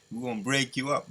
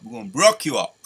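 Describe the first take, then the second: First: Said in the usual way. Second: "broke" said in place of break, punched loud; reworded line. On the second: Shown as a demonstration. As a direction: swap in "broke" and hit it hard. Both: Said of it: "Let me say it like that".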